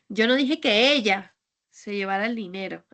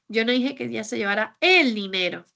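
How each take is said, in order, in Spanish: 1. La palabra "ella" lleva el acento principal. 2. La palabra "dinero" lleva el acento principal. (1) "es que igual fue otra persona" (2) "Es que tal vez se llevó otra cosa"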